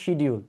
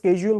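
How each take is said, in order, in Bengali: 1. এটা 'sh' দিয়ে শুরু হয় এবং এতে শক্ত 'd' আছে। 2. এটা 'sk' দিয়ে শুরু হয়, আমেরিকান ঢঙে। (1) "বাংলাদেশিরা বলি আমরা হচ্ছে শিডিউল" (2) "আমেরিকানরা এটাকে স্কেজুল বলে"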